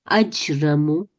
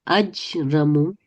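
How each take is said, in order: No difference in how they are said.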